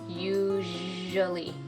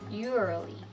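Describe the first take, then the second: First: The middle consonant is a buzzing zh sound. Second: The middle consonant sounds like an R. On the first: The speaker calls it right. "we don't want anything like an R sound in there" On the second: The speaker calls it wrong. "It sort of sounds like an R"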